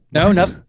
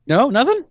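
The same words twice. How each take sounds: First: Said in the usual way. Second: Much higher, rising disbelief; incredulous question. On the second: Shown as a demonstration. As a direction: ask it back in disbelief.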